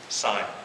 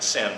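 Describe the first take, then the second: First: The vowel is a long 'eye', rhyming with 'line'. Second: The vowel is a short i, rhyming with 'pin'. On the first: "but I guess it would be sign" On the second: "We're pronouncing it sin"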